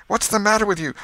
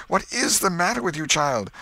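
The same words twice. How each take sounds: First: High, loud question; agitated aunt demanding an answer; urgent demand. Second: "is" punched in a high, exasperated question; insistent repeat with "is" picked out; stress on IS. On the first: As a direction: cut in, alarmed and insistent. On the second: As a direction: lean hard on "is", demanding an answer. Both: Acted.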